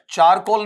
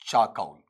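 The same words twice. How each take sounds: First: चारकोल with a sounded "r" and plain "o"; wrong pronunciation. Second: चाकौल as "chaa-kaul", no "r"; correct pronunciation. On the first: Teacher rejecting the usual reading, चारकोल with "r". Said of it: "चारकोल नहीं". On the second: Teacher correcting students, चाकौल with silent r. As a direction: say चाकौल low and falling, gliding "au". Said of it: "ऐसा बनेगा". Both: Shown as a demonstration.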